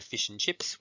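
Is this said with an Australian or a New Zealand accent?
Australian. The vowels in fish and chips sound like 'i'. "In Australia, we say fish and chips"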